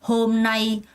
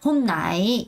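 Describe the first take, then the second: First: The pitch stays level across both syllables. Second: The pitch moves instead of staying level. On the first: The speaker calls it right. "평성을 쭉 유지하셔야 돼요" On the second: The speaker calls it wrong. "이런 거 있으면 안 된다고 했어요"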